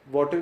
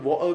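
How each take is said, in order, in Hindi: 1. बीच की t की आवाज़ बोली जाती है। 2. बीच की t की आवाज़ गिराई जाती है। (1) "अमेरिका में" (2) "टी साइलेंट कर देते हैं"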